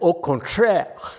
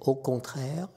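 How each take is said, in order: First: It is said with an American accent. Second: It is said softly with a French accent. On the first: The speaker calls it wrong. "but the American" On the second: The speaker calls it right. "French is au contraire. It's very soft, elegant"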